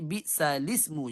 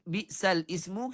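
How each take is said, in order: First: The words run together with no glottal stop. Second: A glottal stop separates the two words. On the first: "pindah kepada lam sebelumnya. Jadi bi'salismu jadinya" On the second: "kalau ismu bi'sal bi'sal ismu"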